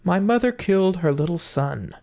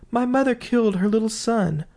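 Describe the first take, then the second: First: Lilting chant, pitched higher; sung, bird's song. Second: Sung, bird's song, higher. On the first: Bird singing its accusation to the house, chanted. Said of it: "began singing". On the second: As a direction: chant it much higher, lilting. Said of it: "the bird began again". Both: Acted.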